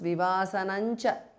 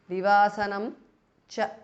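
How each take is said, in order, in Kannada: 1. 'm' ಧ್ವನಿ 'cha' ಯೊಂದಿಗೆ ಸೇರಿದಾಗ 'ny' ಆಗುತ್ತದೆ. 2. ಮೊದಲ ಪದವು 'cha' ಹೊರತುಪಡಿಸಿ 'm' ನಲ್ಲಿ ಕೊನೆಗೊಳ್ಳುತ್ತದೆ. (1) "So it becomes Vivasanancha" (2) "Vivasanam ends in Anuswara followed by Cha"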